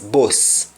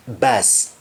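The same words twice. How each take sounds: First: "bus" with a rounded o, like "boss"; Jamaican "bus". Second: Said in the usual way. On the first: Shown as a demonstration. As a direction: say "bus" the Jamaican way, rhyming with "loss". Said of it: "in Jamaican, when somebody says bus". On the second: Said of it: "they mean bus".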